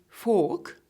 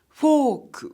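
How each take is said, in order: First: It is said with an English accent. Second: It is said with a Japanese accent. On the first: "the English word fork" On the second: "will be pronounced as fork by Japanese people"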